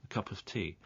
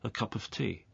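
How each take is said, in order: Both takes have the same delivery.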